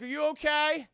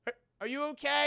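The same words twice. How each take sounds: First: Worried asking. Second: Hurried asking. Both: Retold or imitated. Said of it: "And Ned's like".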